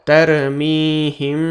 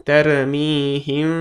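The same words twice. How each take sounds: No difference in how they are said.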